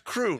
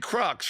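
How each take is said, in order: First: The word ends in a vowel, no ks sound. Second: The word ends with an audible ks sound. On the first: This is the French way of saying it. "In French, it's crew" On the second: This is the American way of saying it. "You don't say crux, right? That that's Americana"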